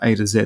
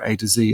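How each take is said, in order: First: Z is said the Australian way, as zed. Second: Z is said the American way, as zee.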